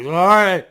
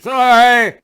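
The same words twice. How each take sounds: First: Said in the usual way. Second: High and loud, a slurred apology; louder sorry. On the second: Retold or imitated. Drunk man bumping strangers, loud high sorry. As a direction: push the apology out over the crowd. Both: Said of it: "people couldn't even understand me".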